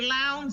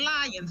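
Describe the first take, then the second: First: The name sounds like 'lounds'. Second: The name sounds like 'lions'. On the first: This is how locals say it. The speaker calls it right. "We say Lowndes in Fifth Ward" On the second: This is how outsiders say it. The speaker calls it wrong. "We don't say Lions"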